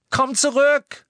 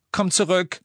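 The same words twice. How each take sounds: First: Very high, loud scream; desperate cry. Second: Raised, higher plea; pleading call. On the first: Hermine screaming after Ron into the night, desperate cry. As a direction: scream it after someone leaving. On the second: Hermine begging Ron as he leaves, pleading call. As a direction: beg him to come back. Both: A narrator's reading.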